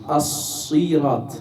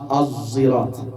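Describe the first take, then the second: First: It starts with an emphatic s sound. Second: It starts with a sound between z and s. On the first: "cambia la sin por la, por la sad" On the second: "Az es entre la zain y la sad"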